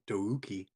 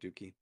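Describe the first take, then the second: First: The name is pronounced in a careful, exaggerated way. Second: The name is pronounced in a plain, casual way. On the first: It avoids sounding like a rude slang word. "as they make sure to overpronounce it" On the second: It sounds like a rude slang word. "so it doesn't sound like Dookie"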